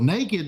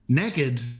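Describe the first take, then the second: First: The word is said in a standard way. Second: The word is said in a Southern way. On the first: Someone has no clothes on. "naked means you don't have any clothes on" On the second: Someone has no clothes on and is up to something. "I'm from Louisiana, we say naked"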